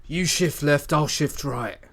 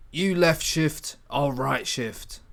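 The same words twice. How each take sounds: First: The corrected line "You shift left, I'll shift right.", loud and confident; louder in-character line. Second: Slow, deliberate reading of "You left shift, I'll right shift."; slow careful read. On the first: Acted. The hacker to his partner, now with the better wording, in full voice. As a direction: deliver the fixed line in character. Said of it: "that's more like it". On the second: Shown as a demonstration. The first read of the line that sounds unnatural, slow and careful. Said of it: "That doesn't sound very natural".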